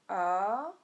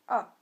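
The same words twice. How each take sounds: First: The pitch dips down then rises again. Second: The pitch falls sharply from high to low. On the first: "il est descendant, puis montant" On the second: "il est descendant"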